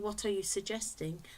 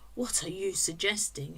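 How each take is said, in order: First: It is asked in a neutral tone. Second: It is asked in a challenging tone.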